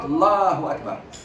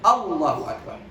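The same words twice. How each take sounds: First: The opening 'a' sound is swallowed or dropped. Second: The opening 'a' sound is clearly pronounced. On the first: The speaker calls it wrong. "And not Allahu Akbar" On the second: The speaker calls it right. "Al. Allahu Akbar"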